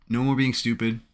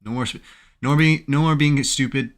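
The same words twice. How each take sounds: First: Said in the usual way. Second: Louder, higher scolding of himself; self-scolding. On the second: Real, not acted. Trader scolding himself after a bad trade, loud. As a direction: snap at yourself to stop. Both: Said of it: "I need to stop being dumb".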